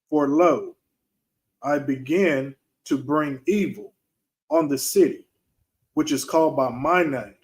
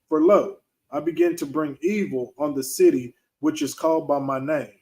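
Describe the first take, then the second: First: It is read more slowly. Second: It is read at a normal pace.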